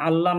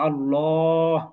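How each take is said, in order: First: The L sound is light and thin. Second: The L sound is heavy and rounded. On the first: The speaker calls it wrong. "আল্লাহ না" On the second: The speaker calls it right. "বলো আল্লাহ"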